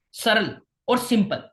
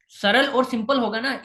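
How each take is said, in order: First: सरल और simple said slowly, each word spaced apart; slow stress. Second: Said in the usual way. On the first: Shown as a demonstration. (सरल और simple धीरे-धीरे, हर शब्द अलग)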